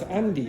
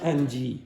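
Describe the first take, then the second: First: The final vowel is light and unexaggerated. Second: The final vowel is exaggerated and drawn out. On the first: The speaker calls it right. "it's Andy" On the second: The speaker calls it wrong. "It's not Angie"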